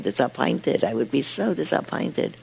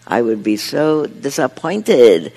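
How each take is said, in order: First: Put-on disappointed with a light Yiddish accent. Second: Said in the usual way. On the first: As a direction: mispronounce disappointed like a Yiddish speaker. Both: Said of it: "he mispronounces with a Yiddish accent".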